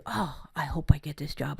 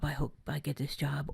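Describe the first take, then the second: First: Said in the usual way. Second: "I hope I get this job" dropped softer, like a quiet wish; softer wishful repeat. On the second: Shown as a demonstration. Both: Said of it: "I've said".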